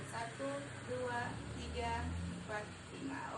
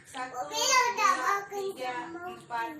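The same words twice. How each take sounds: First: Said in the usual way. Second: Drawn-out, loud and high count; slow loud counting. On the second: Shown as a demonstration. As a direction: stretch each number out loudly. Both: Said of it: "counting out a long exhale".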